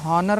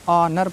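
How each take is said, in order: First: The word starts with an h sound. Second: The word starts directly with a vowel. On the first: The speaker calls it wrong. "इसको हॉनर नहीं पढ़ना है" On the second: The speaker calls it right. "ऑनर पढ़ना है"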